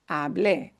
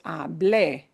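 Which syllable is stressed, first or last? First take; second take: last; last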